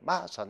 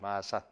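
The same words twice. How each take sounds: First: It is said with Gyeongsang dialect pitch accent. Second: It is said with standard Seoul-style pitch. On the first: "그 사람들은 뭐예요? ... 마산 이렇게 한단 말이야" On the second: "우리는 지금은 뭐 경남 마산 이렇게 하죠"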